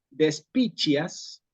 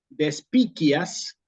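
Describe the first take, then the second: First: The c before i sounds like ch. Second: It is said in the classical Latin way. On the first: "como decimos en el latín eclesiástico" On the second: "que es como hubiera dicho Cicerón"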